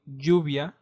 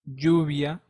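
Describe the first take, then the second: First: The double L sounds like j in jack. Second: The same.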